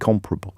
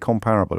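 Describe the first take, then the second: First: The stress is on the first syllable. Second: The stress is on the second syllable. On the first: The speaker calls it right. "Apparently it's supposed to be comparable" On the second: The speaker calls it wrong. "I always say comparable"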